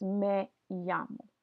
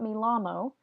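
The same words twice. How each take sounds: First: Me llamo said slowly with a Y, meh YAH-mo; right way. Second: Me llamo with an English L, mee LAH-mo; wrong way. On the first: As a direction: draw out me llamo, double L as Y. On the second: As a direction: say the double L in llamo as an L. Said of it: "So this is not". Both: Shown as a demonstration.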